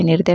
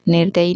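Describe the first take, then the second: First: निर्दय said as "nirday"; correct form. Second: निर्दयी said as "nirdayi"; wrong form. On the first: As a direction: end निर्दय without any "ee". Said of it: "होता है". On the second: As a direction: end निर्दयी on a long "ee". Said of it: "नहीं होता है". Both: Shown as a demonstration.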